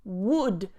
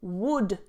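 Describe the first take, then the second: First: The L sound is silent. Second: The same.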